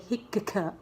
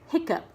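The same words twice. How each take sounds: First: The k sound is pronounced twice, separately. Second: The k sound is pronounced only once. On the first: The speaker calls it wrong. "I said we don't say hiccup" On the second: The speaker calls it right. "We just say hiccup, which has the k sound"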